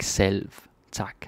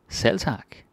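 First: The v in selv is clearly pronounced. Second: The v in selv is silent. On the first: The speaker calls it wrong. "We don't really pronounce the V like selv tak. That's unnatural Danish" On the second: The speaker calls it right. "We don't really pronounce the V"

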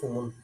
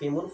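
First: The first syllable has the vowel u. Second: The first syllable has the vowel i. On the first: "ফ্যাস" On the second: "জের"

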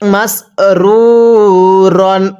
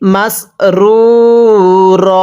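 First: The word ends with a final n sound. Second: The word ends on a long vowel, no n. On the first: The reciter keeps reading without stopping. "র আলিফ দুই জবর রন" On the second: The reciter stops at this word. "ওয়াকফ করলে"

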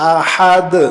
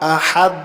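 First: The final d is released with a bounce. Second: The final d is plain, with no bounce. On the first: The speaker calls it right. "বলেছি আহাদ, দালকে আবার ধাক্কাও দিয়েছি" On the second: The speaker calls it wrong. "আহাদ না বলে"

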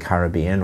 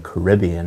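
First: It is said in a non-American, British way. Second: It is said in an American way.

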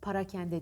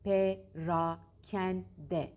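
First: The first vowel is an 'a' sound. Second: The first vowel is an 'e' sound. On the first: The speaker calls it wrong. "parakende denir. Doğru değil" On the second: The speaker calls it right. "Doğrusu perakende"

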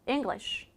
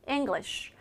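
First: The final 'sh' is said only lightly. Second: The same.

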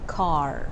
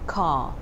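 First: The word ends with an R sound. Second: The word ends without an R sound. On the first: This is the American pronunciation. The speaker calls it wrong. "they tend to pronounce it like car" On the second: This is the British pronunciation. The speaker calls it right. "this word is pronounced car"

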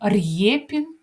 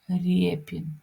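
First: The r is followed by a separate y sound. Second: The r is softened with no separate y sound. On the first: The speaker calls it wrong. "Ми не кажемо" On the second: The speaker calls it right. "ми кажемо"

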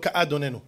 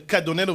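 First: The aleph is given its own vowel. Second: The aleph is silent and the vowels merge. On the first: The speaker calls it wrong. "ולא כאדוננו" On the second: The speaker calls it right. "שמתם לב שאני אומר כאדוננו"

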